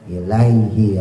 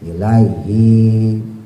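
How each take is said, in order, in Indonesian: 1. Vokal pertama dibaca pendek. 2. Vokal pertama dibaca panjang. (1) "i-nya pendek" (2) "masih banyak yang pakainya panjang"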